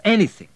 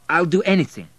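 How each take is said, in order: First: Anything pushed higher and louder; insistent repeat. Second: Eager plea. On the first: Abel begging the general to send him, insistent. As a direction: press the word anything harder than before. Repeats plea more strongly. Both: A narrator's reading.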